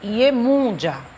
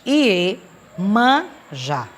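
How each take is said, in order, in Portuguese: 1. A segunda sílaba tem um 'u' fechado. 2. A segunda sílaba tem um 'a' aberto.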